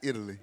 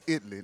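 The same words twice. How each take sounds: First: The name is said the usual standard way. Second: The town name is said the local Texas way. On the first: This is the usual name of the country. The speaker calls it wrong. "not Italy" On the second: This is how the Texas town is named. The speaker calls it right. "it's Italy"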